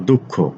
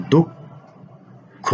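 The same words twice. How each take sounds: First: Said in the usual way. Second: দুঃখ held very slowly and higher; drawn-out high spelling. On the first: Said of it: "teacher repeats word slowly". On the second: Shown as a demonstration. Teacher to students, slowly stretching দুঃখ. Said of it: "teacher stretches word for students".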